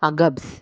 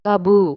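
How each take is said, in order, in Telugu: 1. ఈ పేరు 's' శబ్దంతో ముగుస్తుంది. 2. ఈ పేరు 'bu' శబ్దంతో ముగుస్తుంది.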